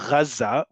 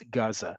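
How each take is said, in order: First: It begins with a throaty, gargled gh sound. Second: It begins with a plain hard g sound. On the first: "In Arabic it's Gaza with a ghain" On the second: "and in English it's Gaza"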